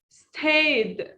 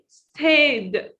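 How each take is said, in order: The two takes are said the same way.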